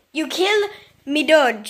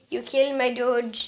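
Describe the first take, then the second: First: Loud mock outrage; louder comic repeat. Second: Said in the usual way. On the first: Shown as a demonstration. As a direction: punch it out comically.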